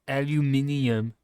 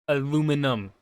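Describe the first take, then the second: First: The word is said with five syllables. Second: The word is said with four syllables. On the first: The speaker calls it wrong. "Not aluminium" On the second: The speaker calls it right. "you hear that, Britain? Aluminum"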